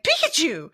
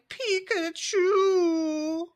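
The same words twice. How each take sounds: First: The word is said in a happy tone. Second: The word is said in a sad tone. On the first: The creature is feeling happy. "when Pikachu's happy" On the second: The creature is feeling sad. "when he's sad"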